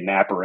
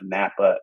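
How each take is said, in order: First: The word ends with an added r sound. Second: The word ends in a plain vowel, no r. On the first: "they would say Napper" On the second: "instead of Napa"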